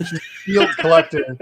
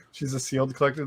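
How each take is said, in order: First: Laughing. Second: Quiet repeat. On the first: Joking to a friend about her mom, laughing. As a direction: let the laugh carry the joke. Joke said twice, first laughing. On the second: Repeating the joke to himself, softly. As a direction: drop it quietly as an aside. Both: Real, not acted.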